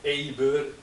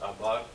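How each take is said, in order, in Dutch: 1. Het woord begint met de klinker 'e'. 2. Het woord begint met de klinker 'a'. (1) "je kan het ook anders uitspreken. ... Want die A kan je ook E zeggen" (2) "Moet u er maar van even uitgaan dat dit Hebreeuws is"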